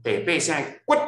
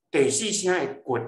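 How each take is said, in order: First: 骨 cut short on a high pitch; high eighth tone. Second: 骨 cut short on a low pitch; low fourth tone. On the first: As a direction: end on 骨 high and abruptly stopped. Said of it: "是毋是较悬". (「骨」第八聲，懸短音) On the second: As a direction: end on 骨 low and abruptly stopped. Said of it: "是毋是较低". (「骨」第四聲，低短音) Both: Shown as a demonstration.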